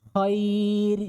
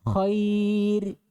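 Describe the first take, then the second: The two takes are said the same way.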